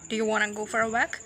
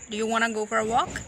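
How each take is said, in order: The two takes are said the same way.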